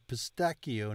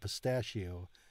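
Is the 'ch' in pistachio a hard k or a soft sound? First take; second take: hard k; soft. First: The ch is a hard k sound. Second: The ch is a soft sound. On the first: The speaker calls it right. "To follow the rules, it would be pistachio" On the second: The speaker calls it wrong. "not pistachio"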